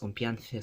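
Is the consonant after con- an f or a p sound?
p. The consonant after con- is a p sound. This is the Philippine Spanish form.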